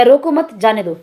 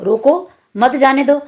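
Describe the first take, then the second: First: "रोको मत" joined, then "जाने दो"; comma after मत. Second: "रोको", pause, then "मत जाने दो"; slowly, setting रोको apart from मत; comma after रोको. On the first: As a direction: keep रोको and मत together, falling at the end. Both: Shown as a demonstration. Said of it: "क्या होना चाहिए".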